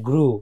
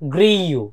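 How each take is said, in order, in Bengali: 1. স্বরধ্বনিটি r-এর পরে সরাসরি আসে, কোনো গ্লাইড ছাড়া। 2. স্বরের আগে একটি y-গ্লাইড আসে। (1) "শুদ্ধ হচ্ছে গ্রু" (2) "আমরা বাংলাদেশিরা অনেক স্পিকার বলি গ্রিউ"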